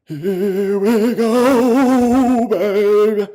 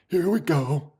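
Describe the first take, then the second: First: Sung, high, extremely drawn-out singsong; sung, stretch every vowel into a wavering tune; crooned celebration. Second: Soft, contained self-talk; quiet composure. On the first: Streamer celebrating Palantir's results, long crooned cheer. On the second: Streamer settling down after cheering, quiet self-talk. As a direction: say it gently, holding the excitement in. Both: Real, not acted.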